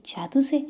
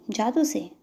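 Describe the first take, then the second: First: "जादू से" higher and louder, rising on से; wondering echo question. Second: "जादू से" as a statement, falling at the end; stated answer. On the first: Child asks Prerna back, "जादू से" as a high rising question. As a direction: echo "जादू से" as an amazed question, pitch going up. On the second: Prerna tells the child her method, "जादू से" stated with a fall. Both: Acted.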